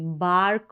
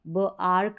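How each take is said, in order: First: The sounds are blended into one smooth word. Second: The first sound is separated from the rest. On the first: The speaker calls it right. "बार्क बोलेंगे" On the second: The speaker calls it wrong. "ब आर्क नहीं बोलेंगे"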